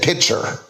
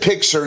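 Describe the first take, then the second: First: It has no k sound before the t. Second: It has a k sound before the t. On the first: This mimics the other person's way of saying it. The speaker calls it wrong. "Put the C before the T, please" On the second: This is the speaker's own way of saying it. The speaker calls it right. "I said picture"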